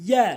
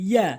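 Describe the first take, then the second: The two takes are said the same way.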